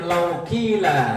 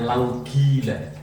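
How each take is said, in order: First: The word qila begins with a k-like sound. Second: The word qila begins with a g sound.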